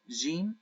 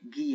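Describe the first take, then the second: First: The word begins with a soft j sound. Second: The word begins with a hard g sound. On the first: This is the Standard Arabic pronunciation. "It's pronounced as j, j, jim in the modern standard Arabic" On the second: This is the Egyptian dialect pronunciation. "it's pronounced as g, g, g, gim"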